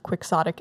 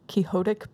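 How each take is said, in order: First: It is said the usual English way. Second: It sounds like the name Don Quixote. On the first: "It's typically pronounced quixotic" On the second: "to make it sound like Don Quixote"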